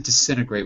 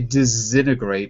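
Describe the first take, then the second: First: The middle consonant is a hissing S sound. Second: The middle consonant is a buzzing Z sound. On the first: "I say disintegrate with an S" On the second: "you could say it with like a Z"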